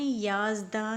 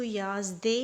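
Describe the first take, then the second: First: "याज़दा" ending in a long aa; correct final alef. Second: "याज़दे" ending in an e sound; mistaken kasra ending. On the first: Teacher shows students the required reading, "याज़दा" ending in aa. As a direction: say "याज़दा" with an open aa at the end. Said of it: "इसको आपने याज़दा ही पढ़ना है". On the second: Teacher warns students off this reading, "याज़दे" ending in e. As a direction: say "याज़दे" with e instead of final aa. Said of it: "इसको याज़दे नहीं पढ़ना". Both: Shown as a demonstration.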